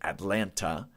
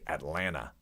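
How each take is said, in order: First: The t sounds are crisply pronounced. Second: The t sound is dropped or softened. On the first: "They wouldn't say Atlanta" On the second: "They would say Atlanta"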